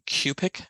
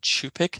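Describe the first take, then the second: First: The word begins with a k sound. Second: The word begins with a ch sound. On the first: The speaker calls it wrong. "I incorrectly used the pronunciation Q-pick" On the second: The speaker calls it right. "rather than Chew-pick"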